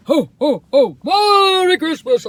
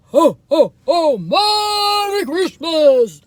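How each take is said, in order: First: Loud high Santa ho ho ho; big slow Santa greeting; jolly ho ho ho. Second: Booming Santa laugh, high and loud; belly-laugh Santa greeting, slow and big; jolly ho ho ho. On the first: Shown as a demonstration. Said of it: "That's how I do it". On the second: Retold or imitated. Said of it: "I used to be Santa".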